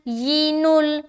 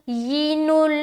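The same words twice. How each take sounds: Both takes have the same delivery.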